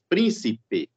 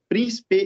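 First: All three syllables are said in full. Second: The middle syllable is dropped, giving two syllables. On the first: "se ele começar a contar as proparoxítonas como três" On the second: "ele conta como duas sílabas"

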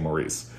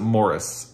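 First: The name is said the non-British way. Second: The name is said the British way. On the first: "I can't stop saying Maurice" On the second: "They pronounce it Morris in the UK"

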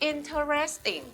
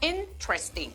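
First: The word is pronounced with four syllables. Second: The word is pronounced with three syllables. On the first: The speaker calls it wrong. "นักเรียนหลายๆคนออกเสียงว่า, interesting, 4, พยางค์ใช่ไหมคะแต่ผิดค่ะ" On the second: The speaker calls it right. "ออกเสียงเพียงแค่, 3, พยางค์ค่ะออกเสียงว่า"

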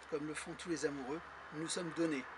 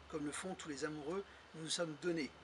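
Both takes have the same delivery.

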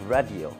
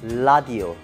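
First: The word begins with an R sound. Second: The word begins with an L sound. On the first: This is the standard English pronunciation. "rather than radio" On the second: This is how Korean speakers say it in Konglish. "Instead of R sound, we have L"

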